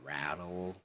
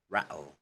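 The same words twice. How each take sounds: First: The t is a soft flapped d sound. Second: The t is replaced by a glottal stop. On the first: "so in American again, it's pronounced as" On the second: "in Cockney they pronounce it because they remove the T's, the glottal T"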